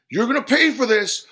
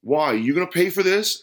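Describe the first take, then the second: First: High, loud furious threat; enraged, punching the words; spitting anger. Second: Louder, higher, incredulous asking; sceptical, pointed question; challenging question. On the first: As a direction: shout the threat at full force. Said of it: "spat the customer". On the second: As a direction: ask it as a challenge. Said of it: "asked the man". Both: A narrator's reading.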